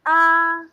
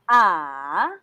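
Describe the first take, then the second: First: The pitch stays level and the vowel is prolonged. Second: The pitch dips down first, then rises. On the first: "you're like singing" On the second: "using third tone"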